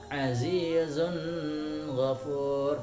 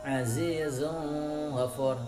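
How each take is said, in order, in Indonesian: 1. Bunyi n ditahan dengan dengung. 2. Bunyi n dilemahkan dan hampir tidak terdengar. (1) "tidak boleh dengung"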